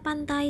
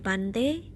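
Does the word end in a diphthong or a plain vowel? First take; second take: diphthong; plain vowel. First: The word ends in the diphthong ai. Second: The word ends in a plain e vowel.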